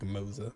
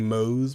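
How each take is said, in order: First: The name ends with a za sound. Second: The name ends with a plain s sound. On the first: The speaker calls it right. "but I think it's like Moza" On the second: The speaker calls it wrong. "I was saying Mose before"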